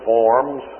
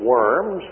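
First: The name is pronounced the German way, like 'vorms'. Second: The name is pronounced like the English word worms. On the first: "the Germans pronounce it Worms" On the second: "we would pronounce it Worms"

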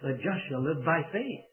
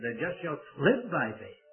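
First: The word faith carries the main stress. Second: The word live carries the main stress. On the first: The focus is on faith as the means. "put the emphasis on the faith" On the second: The focus is on the life the righteous lead. "he put the emphasis on the life"

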